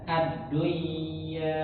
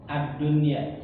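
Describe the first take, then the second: First: The n sound is merged into the y. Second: The n sound is kept clear before the y. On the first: The speaker calls it wrong. "nggak boleh dibaca dengan idgham ya, nggak boleh nggak boleh dibaca ad-dunya" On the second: The speaker calls it right. "jadi dia dibaca dengan idhar mutlak ya"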